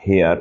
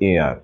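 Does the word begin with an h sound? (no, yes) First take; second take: yes; no. First: The word begins with an h sound. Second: The word begins with a vowel, no h. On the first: The speaker calls it wrong. "It is not হেয়ার" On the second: The speaker calls it right. "It it is কিন্তু এয়ার"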